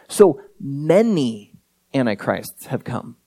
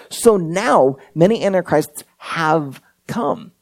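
First: MANY stretched out and set apart by a pause; slow right down and lean on "many"; stress on MANY. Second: Slow quote with HAVE and COME set apart and weighted; stress on HAVE COME. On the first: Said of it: "did you notice what he says right before". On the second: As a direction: draw out "have come" deliberately. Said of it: "He's talking in the present tense". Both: Shown as a demonstration.

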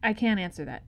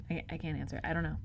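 First: Said in the usual way. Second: Quiet. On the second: Real, not acted.

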